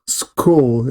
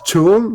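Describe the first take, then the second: First: The word begins with a k sound. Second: The word begins with a ch sound. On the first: The speaker calls it right. "este es k" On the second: The speaker calls it wrong.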